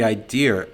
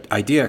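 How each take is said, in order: First: "idea" in a Boston accent, said like "idear" with an added r; Boston accent slipping out on "idea", said "idear". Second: Said in the usual way. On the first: Real, not acted. Boss praising a client's idea, Boston accent on "idea", said "idear". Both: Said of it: "my Boston accent coming out there".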